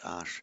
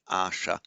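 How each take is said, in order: First: The word ends with a consonant sound. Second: The word ends with a final vowel sound. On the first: This is the modern form of the word. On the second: This is the classical form of the word. "the noun asha"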